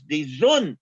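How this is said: It is said in the northern Yiddish pronunciation. "in the north"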